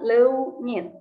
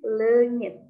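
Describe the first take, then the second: First: The vowel has a clearly pronounced u sound. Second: The vowel has no clearly pronounced u sound. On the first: The speaker calls it wrong. "bukan leunyit" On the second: The speaker calls it right. "U-nya gak usah diucapkan jelas ya"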